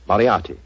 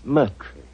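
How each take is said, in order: First: The name is said in full, as spelled. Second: The name is said in a short, clipped form. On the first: This is how the name looks when written. "I'll have to begin calling it the way it looks" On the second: This is how the owner says his own name. "My name is Murtry"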